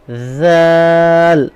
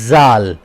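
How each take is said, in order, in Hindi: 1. इस शब्द की शुरुआत soft th की आवाज़ से होती है। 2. इस शब्द की शुरुआत hard j की आवाज़ से होती है। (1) "बहुत ही नरमी के साथ अदा करना है" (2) "जो अमूमन गलती होती है वो ये होती है जाल। जाल जाल पढ़ते हैं जो कि जा की आवाज है"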